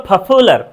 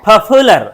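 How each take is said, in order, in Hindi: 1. p में हवा का तेज़ झोंका है। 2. p में हवा का तेज़ झोंका है।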